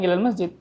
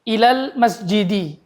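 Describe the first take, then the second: First: The last word ends without a final vowel. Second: The last word ends with a final 'i' vowel. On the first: It is the colloquial dialect form. "di Amia nggak bilang ilal masjid" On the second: It follows formal grammar case endings. "jar majrur"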